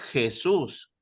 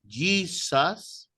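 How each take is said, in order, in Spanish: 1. Se dice con una J suave, como en español. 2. Se dice con el sonido de la J inglesa. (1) "Nosotros decimos Jesús" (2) "la pronunciación inglesa"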